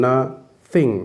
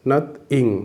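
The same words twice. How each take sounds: First: "nothing" broken as na, pause, thing; split into syllables. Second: "nothing" broken as nath, pause, ing; split into syllables. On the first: Teacher counting syllables in "nothing", split as na-thing. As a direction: say "nothing" in two separate beats, na... thing. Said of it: "vowel সহ যতটা উচ্চারণ করা যায়". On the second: Teacher counting syllables in "nothing", split as nath-ing. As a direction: say "nothing" in two separate beats, nath... ing. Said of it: "দুটো syllable". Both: Shown as a demonstration.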